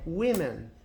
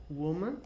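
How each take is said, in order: First: Women with "wi" first and "men" last; plural pronunciation. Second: Woman with a "wu" first syllable; singular pronunciation. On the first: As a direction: say Women as WI-men, falling at the end. (Women pronunciado "uí-men", no plural) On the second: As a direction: say Woman as WU-man, slightly rising. (Woman pronunciado "wú-man", no singular) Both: Shown as a demonstration. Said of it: "você muda o A por E".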